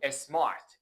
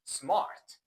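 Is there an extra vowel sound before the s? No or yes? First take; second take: yes; no. First: An extra vowel is added before the s. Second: The word starts directly with the s sound. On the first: The speaker calls it wrong. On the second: The speaker calls it right. "ولی در انگلیسی اینطوری نیستش"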